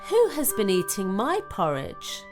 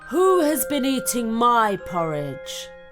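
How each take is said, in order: First: It is said in a medium-sized voice. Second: It is said in a very loud voice.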